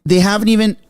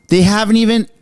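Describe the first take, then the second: No difference in how they are said.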